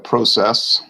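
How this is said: It is said in a Canadian accent.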